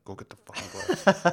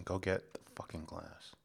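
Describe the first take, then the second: First: Higher, louder exasperated yell; frustrated shout. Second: Words pushed out through clenched teeth; through gritted teeth. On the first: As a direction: blow up and yell it. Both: Pretend. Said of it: "Don't make me talk through my teeth".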